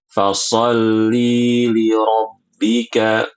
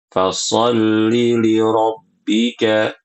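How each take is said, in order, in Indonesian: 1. Vokal dalam fasolli dipanjangkan. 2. Vokal dalam fasolli pendek. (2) "dia ini bacanya pendek"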